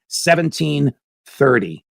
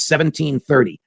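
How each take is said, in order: First: "Seventeen thirty" said slowly, each word weighted; slow emphasis. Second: Said in the usual way. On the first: Shown as a demonstration. Host hammers home the date to viewers, slow and weighty. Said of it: "Crimea has been part of Russia since seventeen thirty".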